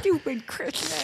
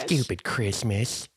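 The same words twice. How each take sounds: First: "Stupid Christmas" with a lisped slushy s. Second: "Stupid Christmas" said slowly with a lateral s, "Chrishmish"; slushy sh for s. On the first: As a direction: smear the s in "Stupid Christmas" toward sh. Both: Retold or imitated. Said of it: "a pretty severe lateral S".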